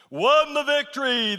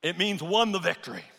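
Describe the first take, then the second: First: "Won the victory" higher and louder; emphatic repeat. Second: Said in the usual way. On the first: Shown as a demonstration. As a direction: punch "Won" with triumph.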